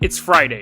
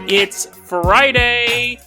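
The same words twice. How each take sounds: First: It is said in a deeper, serious voice. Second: It is said in an ordinary, lighter voice. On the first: "I'll say it in a deeper, more serious voice" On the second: "That sounded that sounded oddly weird"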